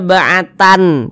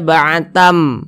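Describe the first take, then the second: First: The word ends with a clear n sound. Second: The word ends with a clear m sound. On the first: The speaker calls it wrong. "Jangan dibaca ba'atan" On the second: The speaker calls it right. "tapi dibaca ba'atam"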